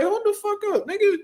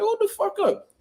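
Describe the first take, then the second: First: Very high, urgent cry; high-pitched panicked warning; retold alarm. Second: Very high, urgent cry again in the retelling; high-pitched panicked warning; retold alarm. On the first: Alarmed as the man charges. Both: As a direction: stop him before he jumps in.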